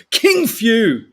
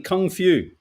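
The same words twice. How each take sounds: First: "King Few" said louder as king and few; wrong reading. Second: "Kung Fu" said as kung and fu; corrected reading. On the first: Misreading the Bruce Lee headline aloud as "King Few". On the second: Correcting the headline misreading, plain "Kung Fu". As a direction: correct yourself back to "Kung Fu". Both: Shown as a demonstration. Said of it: "I mean, Kung Fu".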